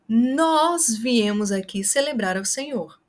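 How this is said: The word nós is stressed. It highlights who came. "para o nós, você vai enfatizar com a gesticulação e com a voz"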